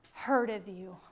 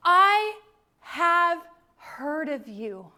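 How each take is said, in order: First: Said in the usual way. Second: Slow and loud, each word weighed; awed loud declaration. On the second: Retold or imitated. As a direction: Job proclaiming in wonder, slowly. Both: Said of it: "and he says".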